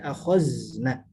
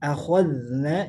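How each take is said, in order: First: The middle consonant is a hissing 'z' sound. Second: The middle consonant is a soft 'dh' sound. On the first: The speaker calls it wrong. "jangan dibaca akhazna" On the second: The speaker calls it right. "hati-hati ketika kita baca akhadna"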